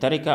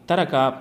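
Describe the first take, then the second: First: The r is followed by an i vowel. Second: The r is followed by an a vowel. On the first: The speaker calls it right. "रा के कसरा ... के साथ जो है ये सही है" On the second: The speaker calls it wrong. "रा के फ़तहा के साथ ... ये सही नहीं है"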